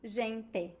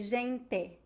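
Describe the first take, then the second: The two takes are said the same way.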